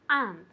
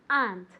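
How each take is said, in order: First: The word is said as one syllable. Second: The word is said as one syllable.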